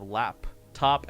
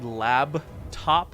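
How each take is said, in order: First: The first syllable ends with a p sound. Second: The first syllable ends with a b sound. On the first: The speaker calls it right. "instead of lap top L A P" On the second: The speaker calls it wrong. "she would say lab top like L A B"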